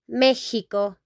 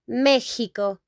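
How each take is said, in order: First: The x is said like an h. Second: The same.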